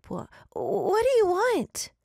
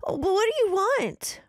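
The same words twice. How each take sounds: First: High, slow, shaky but bold demand; emboldened demand. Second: High, loud, stammering plea; terrified stammer. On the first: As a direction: force the question out bravely. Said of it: "Alice demanded, emboldened for the moment". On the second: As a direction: stutter the question in terror. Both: Acted.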